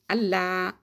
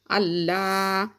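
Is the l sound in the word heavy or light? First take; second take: light; heavy. First: The l sound is light, without emphasis. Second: The l sound is heavy and emphatic. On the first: "sans alourdir le nom, sans faire du tafkhim, donc sans mettre de l'emphase sur le lam" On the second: "on doit mettre l'emphase sur le lam en disant Allah"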